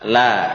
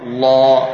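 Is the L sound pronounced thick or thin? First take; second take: thin; thick. First: The L is pronounced light and thin. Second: The L is pronounced heavy and thick. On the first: The speaker calls it right. "Tipis kan?" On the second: The speaker calls it wrong. "La ini namanya menebalkan lam"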